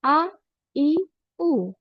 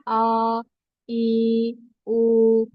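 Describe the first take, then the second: First: The vowels are short and even without jolts. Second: The vowels are drawn out long. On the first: The speaker calls it right. "इस तरह से पढ़ना है बगैर झटके के" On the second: The speaker calls it wrong. "अगर हम इसको स्ट्रेच करें जिस तरह पढ़ने से मना किया गया है"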